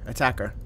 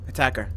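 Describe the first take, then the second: No difference in how they are said.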